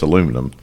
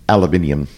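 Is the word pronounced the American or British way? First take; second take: American; British. First: It is said the American way, with four syllables. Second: It is said the British way, with five syllables. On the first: The speaker calls it right. "When we know it's aluminum" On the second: The speaker calls it wrong. "the way the British mispronounce aluminium"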